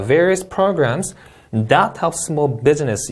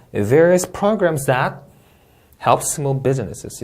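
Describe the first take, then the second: First: "various programs that help small business" read slowly in chunks; phrased reading. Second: "Various programs that" slow and raised, then a pause before "help small businesses"; pause after that. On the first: Teacher demonstrating phrase-by-phrase reading. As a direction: read it out slowly in word groups. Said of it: "이렇게 읽어도 돼요". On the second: Teacher showing how many students split the sentence. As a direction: break the phrase after "that". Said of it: "많은 분들이 이렇게 읽어요". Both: Shown as a demonstration.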